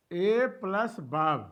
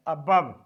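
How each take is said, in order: First: "A plus above", slow, each part separate; split into syllables. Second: Said in the usual way. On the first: Shown as a demonstration. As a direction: slowly take "above" apart as "A plus above". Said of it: "the difference means pauses". ("A plus above" को धीरे, टुकड़ों में तोड़कर) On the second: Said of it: "कहीं विराम नहीं हो रहा है".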